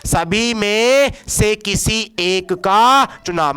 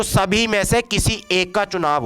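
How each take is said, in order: First: Very slow, drawn-out teaching delivery; slow emphatic repetition. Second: Said in the usual way. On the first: Shown as a demonstration. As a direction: stretch each phrase out for the class. Teacher repeats definition for emphasis. (धीरे-धीरे, खींचकर ज़ोर देते हुए)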